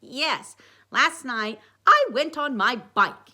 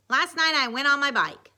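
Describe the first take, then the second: First: Slow, loud mock-British Sherlock accent; Sherlock Holmes accent. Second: Put-on higher, louder kid voice; lightly acted boy explaining; Dwight. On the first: Dwight reporting his investigation, in slow Sherlock accent. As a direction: declaim it in a higher Sherlock accent. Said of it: "using his Sherlock Holmes accent again". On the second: Dwight starting his report, higher and louder. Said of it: "he said using". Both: A narrator's reading.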